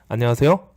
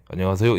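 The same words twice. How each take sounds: First: It is said in a higher, brighter pitch. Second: It is said in a lower, flatter pitch.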